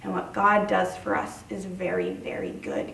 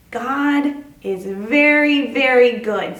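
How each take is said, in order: First: Said in the usual way. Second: "God is very, very good" drawn out slow and louder, leaning on "very"; slow, louder lead line for children to repeat; slow, emphatic call-out. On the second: Shown as a demonstration. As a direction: stretch "very" for the kids to echo. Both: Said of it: "Can you say that with me?".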